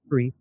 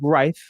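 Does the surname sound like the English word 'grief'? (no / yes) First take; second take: yes; no. First: The name sounds like the word grief. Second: The name does not sound like the word grief. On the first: The speaker calls it wrong. "not Grief" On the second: The speaker calls it right. "It's [name]"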